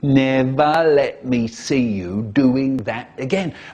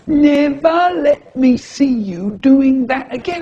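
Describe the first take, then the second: First: It is said in the teacher's normal voice. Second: It is said in a funny mocking voice.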